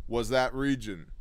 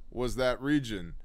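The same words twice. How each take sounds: The two takes are said the same way.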